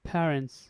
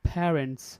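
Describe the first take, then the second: First: The first sound has a strong puff of air. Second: The same.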